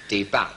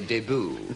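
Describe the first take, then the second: First: It is said with an anglicised pronunciation. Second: It is said with a French-style pronunciation. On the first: "Fowler says always anglicised. ... So we should say debut" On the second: "it sounds so clumsy that we most of us say debut"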